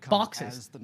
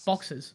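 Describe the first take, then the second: First: BOXES drawn out, over-enunciated; imitated wrong pronunciation. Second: BOXES short, soft, under-enunciated; lazy Australian pronunciation. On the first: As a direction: mimic someone over-articulating BOXES. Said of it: "see what you're doing? You're going". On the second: Shown as a demonstration. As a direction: let BOXES drop out lazily. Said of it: "Don't enunciate, just go".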